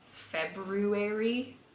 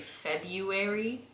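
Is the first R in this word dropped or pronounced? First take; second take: pronounced; dropped. First: The first R sound is clearly pronounced. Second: The first R sound is left out. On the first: This is how the speaker personally says it. "I say February" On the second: This is how most Americans say it. "most Americans say February. Like that first R isn't even there"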